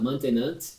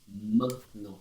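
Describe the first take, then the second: First: The word ends with an audible T sound. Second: The word ends on a nasal vowel without a T. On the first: The speaker calls it wrong. "Tem gente que fala maintenant. Não pronuncia o T lá no final, por favor" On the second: The speaker calls it right. "Ele é bem nasal"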